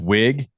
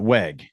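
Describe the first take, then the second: First: The vowel sounds like the one in 'big'. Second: The vowel sounds like the one in 'bed'. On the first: The speaker calls it right. "it's wig" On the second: The speaker calls it wrong. "not weg"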